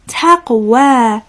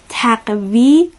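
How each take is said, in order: First: The word ends with a long 'a' sound. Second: The word ends with an 'ee' sound. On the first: The speaker calls it right. "یعنی باید بگیم تقوا" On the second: The speaker calls it wrong. "اشتباهاً تقوی خوانده نشه"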